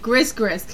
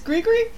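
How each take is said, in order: First: The s sound is pronounced in each part. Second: The s sound is silent in each part. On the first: The speaker calls it wrong. "Because it's spelled Gris. So I said Grisgris" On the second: The speaker calls it right. "oh, it's Grigri?"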